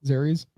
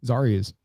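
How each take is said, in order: First: "Zarius" with an AIR first vowel, rising; alternate name pronunciation. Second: "Zarius" with an AH first vowel, falling; alternate name pronunciation. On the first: Co-host checking the guest's name, "Zarius" said ZAIR-ee-us. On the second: Co-host retrying the guest's name, "Zarius" said ZAR-ee-us. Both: Real, not acted. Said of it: "how you pronounce it".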